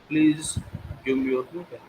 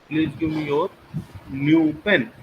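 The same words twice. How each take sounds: First: The word please carries the main stress. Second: The word your carries the main stress. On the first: It is a polite request. "it means I'm requesting" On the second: It must be the listener's pen, nobody else's. "Your, not any others"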